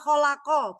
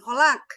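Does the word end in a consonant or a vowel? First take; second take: vowel; consonant. First: The word ends on an open a vowel. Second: The word ends on a bare consonant. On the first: The speaker calls it right. "Fi'il madhi kan mabni alal fathi" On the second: The speaker calls it wrong. "bukan mabni alal sukun"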